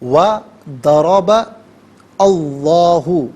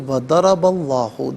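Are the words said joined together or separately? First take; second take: separately; joined. First: Each word is said apart with breaks. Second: The words run together without breaks. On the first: "हर कलमे को अलहदा" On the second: "मिलाकर पढ़ेंगे"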